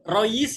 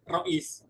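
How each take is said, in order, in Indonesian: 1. Bunyi tengahnya bunyi y. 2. Bunyi tengahnya hamzah. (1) "Karena Hamzah dibaca ya" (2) "Rois itu kan dari rois"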